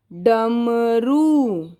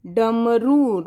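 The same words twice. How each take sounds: First: Very slow drawn-out डमरू; dictation word. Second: Said in the usual way. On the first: Shown as a demonstration. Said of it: "अगला शब्द लिखेंगे". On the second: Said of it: "र पर ध्यान से देखना".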